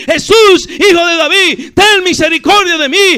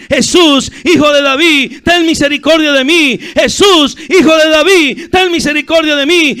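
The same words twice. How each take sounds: First: Top-of-the-voice shout, very high; crying out harder. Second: High, very loud pleading shout; crying out. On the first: Blind beggar shouting over those silencing him, crying out harder. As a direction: shout for mercy with all your might. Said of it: "él empezó a gritar más fuerte". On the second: Blind beggar calling to Jesus as he passes, crying out. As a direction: shout for mercy at full voice. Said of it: "ese ciego empezó a gritar". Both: Acted.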